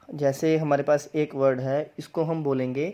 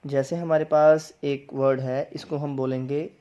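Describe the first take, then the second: No difference in how they are said.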